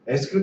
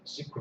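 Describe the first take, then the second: First: It is spelled out letter by letter. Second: It is said as one word, sequel. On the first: The speaker does not know the usual pronunciation. "이 발음을 모르는 사람은 에스큐엘" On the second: The speaker knows the term well. "미국 사람이 언어를 할 때는 세퀄 서버라고 합니다"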